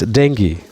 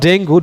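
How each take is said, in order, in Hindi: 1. शब्द 'ee' ध्वनि पर खत्म होता है। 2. शब्द 'oo' ध्वनि पर खत्म होता है। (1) "it's dengue. In English, it's dengue" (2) "not dengue, don't say dengue"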